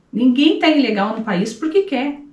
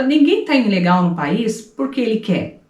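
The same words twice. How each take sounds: First: "tá" pushed up high, the whole line lifted; emphatic repeat. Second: Said in the usual way. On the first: Shown as a demonstration. Repeating her point to the interviewer, with emphasis on "tá". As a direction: hit "tá" hard and higher to drive it home.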